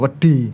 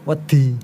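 First: The word is pressed out more heavily. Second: The word is pressed out more lightly. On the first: It means sand. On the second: It means afraid.

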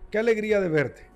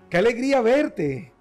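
First: It sounds flat and not really glad. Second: It sounds warm and genuinely glad.

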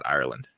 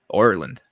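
First: The word is said in a plain accent. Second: The word is said in an attempted Irish accent.

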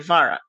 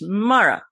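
First: The name begins with a V sound. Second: The name begins with an M sound. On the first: This is the reading from the written name. The speaker calls it wrong. "my brain will say Vara" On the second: This is how the person says their own name. The speaker calls it right. "I know your name is Mara"

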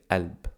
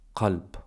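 First: The word begins directly with a vowel. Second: The word begins with a deep q sound. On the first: This is the everyday spoken form. "Or in spoken, we don't need to pronounce the qaf, we say alb" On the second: This is the standard form. "which means heart"

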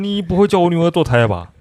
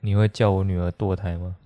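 First: Said in the stiff, tense voice of an old veteran. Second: Said in the speaker's own normal voice.

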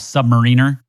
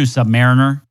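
First: It is not said as 'sub' plus 'mariner'. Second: It is said as 'sub' plus 'mariner'. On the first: Some people say it this way, reportedly the official form. "which some people like to call submariner" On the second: The vessel goes below the marine surface. "I'm going to stick with submariner. I mean, it's below the surface. It's below the marine"

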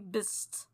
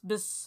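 First: The name ends with a T sound. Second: The name ends without a T sound. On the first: The speaker calls it wrong. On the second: The speaker calls it right.

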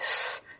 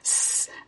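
First: The S hiss is made further back, lower. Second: The S hiss is made further forward, higher. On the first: This is typical of men speakers. "tongue slightly further back ... slightly lower sounding" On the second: This is typical of women speakers. "slightly further forward and it ends up sounding slightly different"

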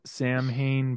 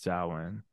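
First: The word is read just as it is spelled. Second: The word is said unlike its spelling. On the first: The speaker calls it wrong. "Spelled Samhain" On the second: The speaker calls it right. "but pronounced Samhain"

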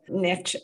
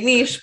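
First: It is said with an American pronunciation. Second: It is said with a non-American pronunciation.

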